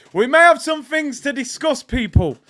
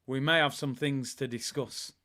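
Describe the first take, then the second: First: High, shouted warning; loud announcement. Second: Said in the usual way. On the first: Real, not acted. Streamer telling people about Monday's show, high and shouted. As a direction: belt it out to the whole audience.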